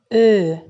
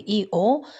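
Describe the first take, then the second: First: One steady rounded front vowel is held. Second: An i-sound glides into an o-sound. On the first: The speaker calls it right. "dar spunem Ö" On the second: The speaker calls it wrong. "nu spunem I-O"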